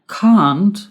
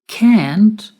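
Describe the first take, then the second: First: It is said with a British accent. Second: It is said with an American accent. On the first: "is the pronunciation in British English" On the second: "is the pronunciation in American English"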